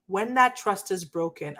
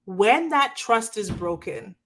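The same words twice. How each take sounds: First: Said in the usual way. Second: Slow, breathy whisper of the phrase. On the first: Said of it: "repeated after whispered take". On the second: Shown as a demonstration. To her viewers about broken trust, whispered slowly. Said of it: "whispered then repeated plainly".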